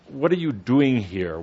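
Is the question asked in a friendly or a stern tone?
friendly. The question is asked in a mild, friendly tone. A casual, welcoming question. "They don't say it like that"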